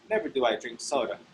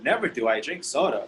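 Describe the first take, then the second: First: It is said in a firm, formal, emphatic way. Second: It is said in an exaggerated, dramatic way. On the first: The speaker sounds formal and fancy. "it's very emphatic. You, you sound very formal" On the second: The speaker is overdoing it. "Oh my God, that can be dramatic"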